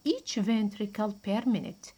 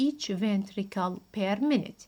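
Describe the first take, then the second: No difference in how they are said.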